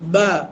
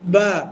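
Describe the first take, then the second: First: It is said naturally with relaxed lips. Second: The same.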